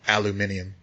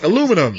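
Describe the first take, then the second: First: It is said the fancier British way. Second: It is said the plain American way. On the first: "that they say in the U K" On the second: "It's like aluminum, not fancy enough"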